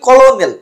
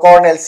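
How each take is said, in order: First: It is said sounding out every written letter. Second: It is said with its usual short pronunciation.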